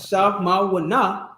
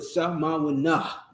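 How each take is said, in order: First: The final syllable ends without an audible breath. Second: The final syllable ends with an audible breath. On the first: The speaker calls it wrong. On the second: The speaker calls it right. "that breath you take at the end of the nah, it's the huh"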